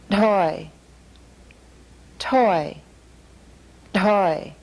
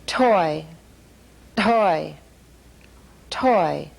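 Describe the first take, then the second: The two takes are said the same way.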